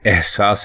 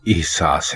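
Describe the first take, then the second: First: The word begins with an 'a' vowel. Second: The word begins with an 'i' vowel. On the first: The speaker calls it wrong. "दुरुस्त लफ्ज एहसास नहीं" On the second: The speaker calls it right. "बल्कि एहसास है"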